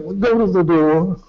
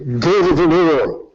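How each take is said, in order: First: It is said calmly, with little urgency. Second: It is said angrily, with heightened urgency.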